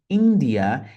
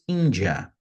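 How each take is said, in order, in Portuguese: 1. A palavra é dita com pronúncia inglesa. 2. A palavra é dita com pronúncia portuguesa. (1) "Olha a diferença da pronúncia em língua inglesa" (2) "e em português"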